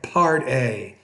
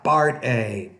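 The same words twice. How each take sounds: First: The P has a strong puff of air. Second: The P has little air, like a B. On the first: The speaker calls it right. "pronounce that with more air" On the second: The speaker calls it wrong. "not part A"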